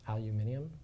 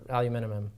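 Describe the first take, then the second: First: It is said with five syllables, non-American style. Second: It is said with four syllables, American style.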